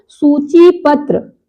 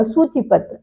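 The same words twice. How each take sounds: First: सूची पत्र slow, with a long chee; शुद्ध उच्चारण. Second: सूची पत्र quick, with a short chi; आम उच्चारण. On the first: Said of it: "ये शुद्ध क्या होता है". (सूची पत्र में "ची" खींचकर) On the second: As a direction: run सूची पत्र together. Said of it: "आप बोलते हैं ना". (सूची पत्र में "चि" छोटा) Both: Shown as a demonstration.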